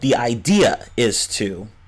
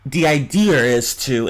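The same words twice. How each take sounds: First: No R sound links 'idea' and 'is'. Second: An R sound links 'idea' and 'is'. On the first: "instead of" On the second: "they'll say something like"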